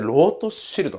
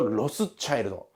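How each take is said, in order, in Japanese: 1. ドイツ語式で、Rote-shiltのように聞こえます。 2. 英語式で、Ross-childのように聞こえます。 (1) "ドイツ語発音で" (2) "いわゆる英語発音にすると"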